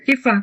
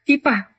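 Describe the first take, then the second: First: The middle consonant is an f sound. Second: The middle consonant is a p sound. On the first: This is how Indonesians in general say it. "Orang Indonesia nyebutnya if, iffah" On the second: This is how local people say it. "Atau orang kita nyebutnya ipah"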